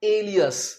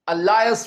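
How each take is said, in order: First: The middle syllable sounds like 'lee'. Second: The middle syllable sounds like 'lie'. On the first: The speaker calls it right. "असल में इसका सही उच्चारण है एलियस" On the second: The speaker calls it wrong. "बहुत से students इसे बोलते हैं अलायस, जो कि बिल्कुल गलत है"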